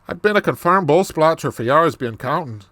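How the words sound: It is spoken in a put-on Irish accent. "this Irish accent"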